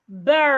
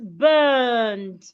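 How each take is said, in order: First: It is said with an American accent. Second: It is said with a non-American accent. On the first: "Americans will go burn" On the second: "this is burned"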